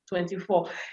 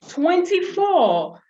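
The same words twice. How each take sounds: First: It is said flatly, without enthusiasm. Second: It is said with lively enthusiasm.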